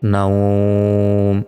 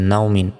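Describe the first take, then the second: First: The vowel is stretched out long. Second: The vowel is short, with no stretching. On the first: The reader stops on this word. "এখানে টেনে পড়লাম" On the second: The reader does not stop on this word. "এখানে না থামলে কোনো টেনে পড়া যাবে না"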